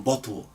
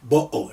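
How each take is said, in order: First: Said in the usual way. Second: Bo'o with the t swallowed as a glottal catch; Cockney glottal stop. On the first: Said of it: "rather than". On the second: Shown as a demonstration. Teacher imitating Cockney to explain the glottal stop. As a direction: drop the t of bo'o, London style. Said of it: "they speak and say".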